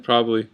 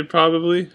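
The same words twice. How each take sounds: First: Said in the usual way. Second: "probably" in three syllables, "prob-ab-ly"; reading pronunciation. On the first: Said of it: "I usually say probably". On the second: Shown as a demonstration. Vlogger saying it as read, full pronunciation. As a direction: sound the middle syllable of "probably". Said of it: "I read it as probably".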